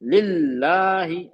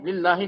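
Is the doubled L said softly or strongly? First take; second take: strongly; softly. First: The doubled L is held and stressed strongly. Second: The doubled L is said softly and briefly. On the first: The speaker calls it right. "मैं कर रहा हूँ, एम्फेसाइज कर रहा हूँ, स्ट्रेस कर रहा हूँ" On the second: The speaker calls it wrong. "लिल्लाही नहीं करना"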